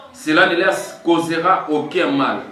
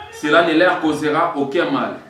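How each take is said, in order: No difference in how they are said.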